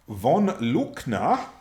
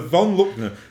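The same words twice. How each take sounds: First: The name is said in a put-on German accent. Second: The name is said in a plain English accent.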